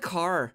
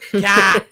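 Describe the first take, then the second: First: The word car is said with an American accent. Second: The word car is said with an Australian accent. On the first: "when you got here" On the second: "after a while, you're like"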